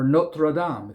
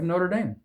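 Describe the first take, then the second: First: It is said with a French-style pronunciation. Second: It is said with an anglicized pronunciation. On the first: The speaker calls it right. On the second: The speaker calls it wrong.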